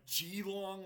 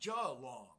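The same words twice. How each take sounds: First: The first syllable sounds like 'jee'. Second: The first syllable sounds like 'jay'. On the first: "like J I long, like G long" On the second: "like J A long"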